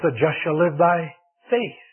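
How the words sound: The word "faith" carries the main stress. The focus is on what the righteous live by. "puts the emphasis on the faith"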